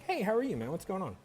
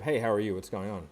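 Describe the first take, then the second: First: It is said in a curious, lively tone. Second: It is said in a flat, scripted tone.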